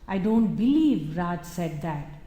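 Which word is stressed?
believe. The word believe carries the main stress. The speaker cannot believe such a thing was said. "it is about a disbelief. I can never believe Raj would say that"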